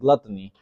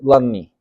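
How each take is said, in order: First: The T sounds are clearly pronounced. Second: The T sounds are dropped. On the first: "I said gluttony" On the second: "So don't even pronounce the T's"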